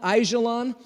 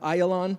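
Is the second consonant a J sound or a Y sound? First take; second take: J sound; Y sound. First: The second consonant is a J sound. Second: The second consonant is a Y sound. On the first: The speaker calls it wrong. "we would probably call it Ajalon" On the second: The speaker calls it right. "you don't say the J, so Ayalon, you'd say a, a Y sound"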